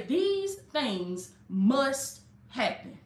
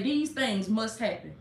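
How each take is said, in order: First: Very slow, each word spaced out; slow and deliberate. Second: Said in the usual way. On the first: Shown as a demonstration. Preacher giving the congregation words for the comments, very slow. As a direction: spell it out slowly so they can type it.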